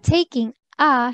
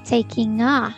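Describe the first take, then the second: First: The words are said separately, not linked. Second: The words run together into one linked unit. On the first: "instead of saying" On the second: "you can say"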